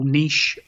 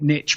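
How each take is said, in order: First: The word ends with a soft 'sh' sound. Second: The word ends with a 'tch' sound. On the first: This is the English way of saying it. "we English people call niche" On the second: This is the American way of saying it. "Americans add a T to it and call it niche"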